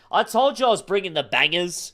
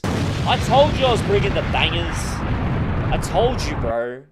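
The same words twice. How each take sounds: First: Said in the usual way. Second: TOLD punched, louder and higher; hyped-up bro repeating himself louder; louder insistent repeat. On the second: Shown as a demonstration. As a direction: hammer it home the second time.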